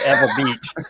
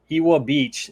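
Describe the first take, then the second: First: Ewa is pronounced the way locals say it. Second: Ewa is pronounced the way visitors say it. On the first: The speaker belongs to the place. The speaker calls it right. "instead of" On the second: The speaker is a newcomer to the place. The speaker calls it wrong. "you're either a tourist or an F O B fresh off the boat"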